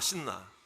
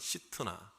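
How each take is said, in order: First: The name is said without a 't' sound. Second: The name is said with a 't' sound. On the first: "신나라는 말이요" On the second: "히브리어 발음으로 이제 좀 비슷하게 하면"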